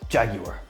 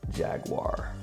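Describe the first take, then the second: First: It is said in a British accent. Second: It is said in an American accent.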